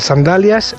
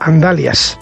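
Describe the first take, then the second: First: The word begins with an s sound. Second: The word begins with a vowel sound.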